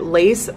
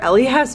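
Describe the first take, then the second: First: It is said as one word, 'lace'. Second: It is spelled out as three letters. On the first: "you can pronounce it lace" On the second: "or L-E-S"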